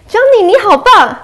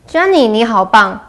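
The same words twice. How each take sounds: First: The praise is said warmly, with enthusiasm. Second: The praise is said flatly, without enthusiasm.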